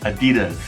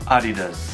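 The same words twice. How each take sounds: First: It is said with the American pronunciation. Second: It is said with the German pronunciation. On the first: "in the U S, we always say Adidas" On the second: "The correct pronunciation for this German brand is actually Adidas"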